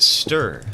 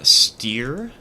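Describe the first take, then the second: First: The vowel sounds like in 'stir'. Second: The vowel sounds like in 'steer'. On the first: The speaker calls it right. "Like a stir stick" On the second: The speaker calls it wrong. "The funniest way I've ever heard somebody try and pronounce it"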